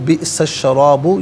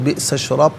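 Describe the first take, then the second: First: The word ends with a final u vowel. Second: The word ends on a bare b consonant. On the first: The reading continues without stopping. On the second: The reader stops here.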